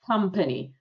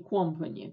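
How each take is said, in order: First: The first vowel sounds like an A. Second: The first vowel sounds like a full O. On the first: The speaker calls it right. "А произносится через A" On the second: The speaker calls it wrong. "Это не company, как многие почему-то говорят"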